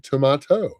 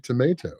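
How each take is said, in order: First: It is said with a British pronunciation. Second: It is said with an American pronunciation. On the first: The speaker is in the UK. "when I'm in the U K, I say tomato" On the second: The speaker is in the United States. "when I'm in the United States, I say tomato"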